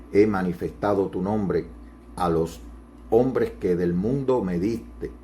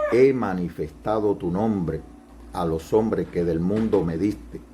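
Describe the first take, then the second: Both takes have the same delivery.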